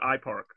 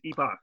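First: The name is said like an English brand name. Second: The name is said with Korean pronunciation. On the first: The speaker calls it wrong. "This is not some Apple-developed parking software for your car. This is not iPark" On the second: The speaker calls it right.

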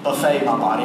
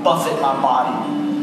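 First: Buffet is said with stress on the second syllable. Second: Buffet is said with stress on the first syllable. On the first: It names a spread of food. The speaker calls it wrong. "not buffet my body" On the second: It means to strike or beat. The speaker calls it right. "I beat it"

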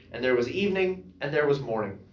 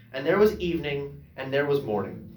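The two takes are said the same way.

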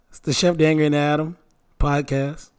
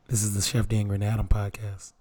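First: It sounds polite, like a customer service agent. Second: It sounds menacing, like threatening someone.

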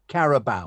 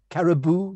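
First: The name ends with an 'ow' sound. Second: The name ends with an 'oo' sound. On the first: This is the proper name of the competition. The speaker calls it right. "the other thing is pronunciation of Carabao" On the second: This is how someone else habitually says it. The speaker calls it wrong. "Caribou, you always say?"

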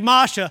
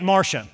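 First: Said in a Boston accent, dropping the r. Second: Said in a southern accent, with the r.

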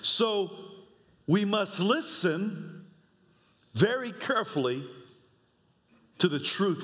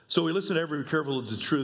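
First: It is read slowly and thoughtfully. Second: It is read quickly and casually. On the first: The verse is taken to heart. The speaker calls it right. "Let's prayerfully read the scripture the way I think that God would want us to read it" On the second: The verse is skimmed without much thought. The speaker calls it wrong. "This is how you could easily read this scripture in your daily devotion"

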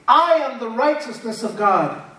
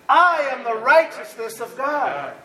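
First: It is said plainly, without special conviction. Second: It is said with strong, believing conviction. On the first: "Say this with me" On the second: "Now say it like you believe it"

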